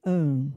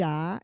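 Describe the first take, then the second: First: "an" said as nasalised ã; nasal A sound. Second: "A" said as open oral ah; open A sound. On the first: Teacher contrasting two vowel sounds, nasal A sound. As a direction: hum "an" through the nose. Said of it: "O som de A e de an". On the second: Teacher contrasting two vowel sounds, open A sound. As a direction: sound out "A" with no nasality. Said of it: "tem dois sons". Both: Shown as a demonstration.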